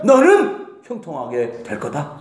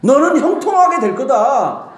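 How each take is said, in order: First: Slow, low take with the weight on 너는; flubbed first take. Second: 형통하게 lifted and falling, said with a laugh; retake with a laugh. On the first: Preacher's first try at the blessing, slow and low. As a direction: lean on 너는 and drag the line out. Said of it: "엔-, 엔지, 다시". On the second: Preacher retaking the blessing line, laughing brighter. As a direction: redo it brighter and hit 형통하게. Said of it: "다시". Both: Shown as a demonstration.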